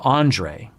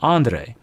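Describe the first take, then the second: First: The name is said with an Americanized sound. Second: The name is said with its original foreign sound. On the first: The speaker calls it wrong. "instead of Andre" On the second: The speaker calls it right. "[name] actually says Andre"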